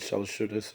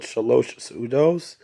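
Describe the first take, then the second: First: The two words are mumbled together as one. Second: The two words are said clearly apart. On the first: "even more colloquially we kind of mumble it together" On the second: "colloquially we call it"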